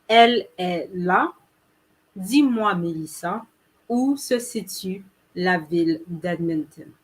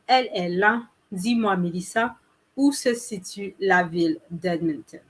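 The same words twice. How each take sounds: First: It is said a little more slowly. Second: It is said at normal speed.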